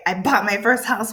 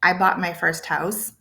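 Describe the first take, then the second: First: Excited emphasis on the news. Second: Said in the usual way. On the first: Shown as a demonstration. Teacher showing what the exclamation mark adds, excited. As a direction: say it as an exclamation, with a lift. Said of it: "it shows I am so excited". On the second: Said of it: "So if I write".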